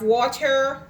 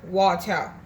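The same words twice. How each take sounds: First: It is said with standard English pronunciation. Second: It is said in Jamaican patois, ending in 'a'.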